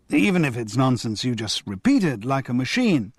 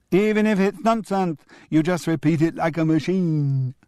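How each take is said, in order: First: Said in the usual way. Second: Put-on high crowing child echo. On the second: Julian crowing his grandfather's words back, high. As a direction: crow it back triumphantly like a kid. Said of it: "crowed Julian".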